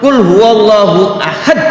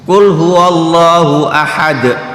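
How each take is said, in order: First: The last word ends with a forceful hit. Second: The last word ends softly without extra force. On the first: Say that God is sharper. The speaker calls it wrong. "ahad dengan intonasi kenceng di akhir" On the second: Say that God is One. The speaker calls it right. "jangan memberi intonasi di akhir ketika membaca ahad"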